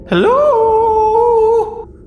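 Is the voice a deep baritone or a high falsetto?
high falsetto. It is said in a high falsetto voice. "in a high falsetto"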